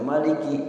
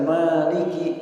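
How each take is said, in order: First: The first vowel is kept short. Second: The first vowel is held long. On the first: God is the ruler. "artinya penguasa" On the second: God is the owner. "artinya pemilik"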